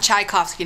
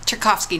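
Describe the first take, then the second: First: Tchaikovsky said as shy-KOF-skee; Tchaikovsky with an open shy start; composer's pronunciation. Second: Tchaikovsky said as tuh-KOF-skee, no "chai" sound; her own pronunciation. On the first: Setting the composer's name apart, Tchaikovsky as shy-KOF-skee. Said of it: "not the composer". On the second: Telling viewers how the inventor's name is said, Tchaikovsky as tuh-KOF-skee. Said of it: "not Tchaikovsky, not the composer". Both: Shown as a demonstration.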